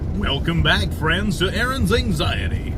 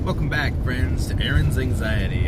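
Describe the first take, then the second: First: It is said in a put-on announcer voice. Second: It is said in an ordinary speaking voice. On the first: "I have my announcer voice" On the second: "I should start using my announcer voice for that"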